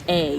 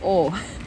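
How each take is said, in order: First: The vowel sounds like 'ah'. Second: The vowel sounds like 'oh'. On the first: The speaker calls it wrong. "not A. You're not going to A" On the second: The speaker calls it right. "A with a circle above it is pronounced like the letter O"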